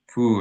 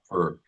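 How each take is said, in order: First: The vowel is an 'oo' sound. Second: The vowel is an 'er' sound. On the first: The speaker calls it right. "the U's are always U" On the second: The speaker calls it wrong. "and not er"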